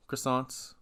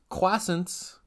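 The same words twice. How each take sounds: First: Said in the usual way. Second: Croissants said "KWASS-ents", with no r; pitched-up "KWASS-ents" for croissants; Tom Holland pronunciation. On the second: Retold or imitated. Host imitates Tom Holland saying croissants, as "KWASS-ents". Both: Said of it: "Tom Holland says croissant".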